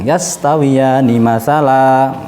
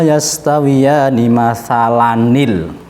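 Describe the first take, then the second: First: It stops on a long final vowel. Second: It runs on with an added nil. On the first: The reciter stops at the end of the verse. "Kalau waqaf dibaca fathah panjang" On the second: The reciter joins the verse to the next one. "kemudian kita wasolkan"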